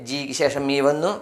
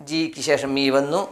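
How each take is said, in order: The two takes are said the same way.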